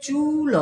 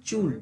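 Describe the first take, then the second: First: চুল broken in two, "chuu-lo", both drawn out; two-beat pronunciation. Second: চুল as one short syllable, "chul"; one-beat pronunciation. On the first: Teacher showing pupil the unwanted way, split in two beats. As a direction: say চুল as long "chuu" plus separate "lo". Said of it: "দু ঝোঁকে উচ্চারণ করতে গেলে". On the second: Teacher correcting pupil to the one-beat way. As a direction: say চুল in a single push, closed on the l. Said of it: "আমরা বলি চুল, এক ঝোঁক". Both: Shown as a demonstration.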